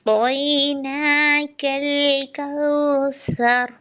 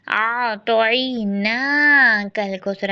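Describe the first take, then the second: First: ना held two counts, slow; two-count madd. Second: ना dragged four counts; wrong long madd. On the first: Teacher shows ना held exactly two counts. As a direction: stretch ना in तोई ना कल कौसर just two counts. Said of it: "यहाँ पर ना टू counts". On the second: Teacher shows wrong reading with ना too long. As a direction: overstretch ना in आ तोई ना कल कौसर. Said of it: "ऐसे नहीं पढ़ना, ये फोर काउंट्स चला गया". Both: Shown as a demonstration.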